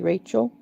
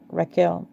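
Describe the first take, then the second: First: The name has its familiar English pronunciation. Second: The name has a different, non-English pronunciation. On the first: "the way we say it" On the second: "we need to learn to say it the other way"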